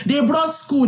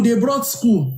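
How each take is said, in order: First: "brought" pushed up high and hard; emphatic first take. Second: Said in the usual way. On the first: Shown as a demonstration. To listeners on colonial schooling, stressing "brought". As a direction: hit "brought" high, then let the repeat fall.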